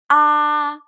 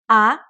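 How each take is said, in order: First: The pitch stays high and level. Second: The pitch rises steadily upward. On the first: "The first tone, ah, high and flat" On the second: "The second tone, ah, it goes up like up"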